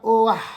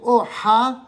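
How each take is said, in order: First: The a vowel comes before the h sound. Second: The a vowel comes after the h sound. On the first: The speaker calls it right. "on dira" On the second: The speaker calls it wrong. "Au lieu de dire"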